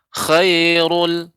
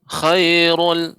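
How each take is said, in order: No difference in how they are said.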